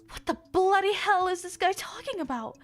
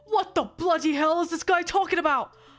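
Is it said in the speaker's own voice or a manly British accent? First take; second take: own voice; British accent. First: It is said in the speaker's own voice. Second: It is said in a manly British accent.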